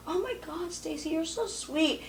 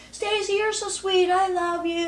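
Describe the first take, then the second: First: Said in the usual way. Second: Higher, louder, slow gushing announcement; proclaiming it loudly to everyone in the limo. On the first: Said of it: "She goes". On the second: Retold or imitated. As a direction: broadcast it to the whole limo. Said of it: "says right in front of everyone really loud".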